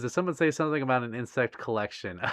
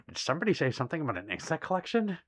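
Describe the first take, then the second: First: Said in the usual way. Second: Quick, laughing put-on voice repeating the line; mock dramatic reread. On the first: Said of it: "And Stitch says". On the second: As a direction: ham it up like a sneaky collector. Repeats chat line performed.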